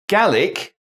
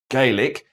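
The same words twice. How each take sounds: First: The word is said the Scottish way. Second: The word is said the Irish way. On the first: It names the language of Scotland. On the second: It names the language of Ireland.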